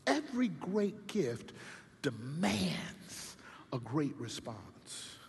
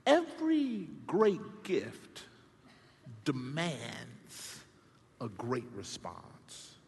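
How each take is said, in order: First: Second time dropping to a whisper; quiet echo of the maxim; hushed repeat. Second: Slow, each phrase set apart; solemn maxim read out; spaced declaration. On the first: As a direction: say it again, softer, almost whispered. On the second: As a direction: proclaim it with long pauses. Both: Shown as a demonstration.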